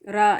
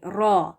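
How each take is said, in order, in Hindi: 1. स्वर एक सादा खुला 'aa' है। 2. स्वर एक गोल 'aw' है। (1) "रा नहीं"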